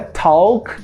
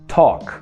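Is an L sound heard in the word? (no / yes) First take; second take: yes; no. First: The L sound is pronounced in the word. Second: The L is silent, with an O vowel. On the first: The speaker calls it wrong. "Não é talk com L" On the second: The speaker calls it right. "Esse L vai desaparecer. A gente vai usar o som de O"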